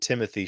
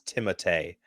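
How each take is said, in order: First: The name is said in its everyday English form. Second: The name is said in its original form. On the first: This is the version he asks people to use. "he tells people to call him" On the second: This is his real name's pronunciation. "the real pronunciation is"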